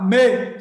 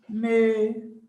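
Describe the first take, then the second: First: The word is said loudly and forcefully. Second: The word is said softly and weakly. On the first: "Se eu falar me, é forte" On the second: "eu falar assim, ó"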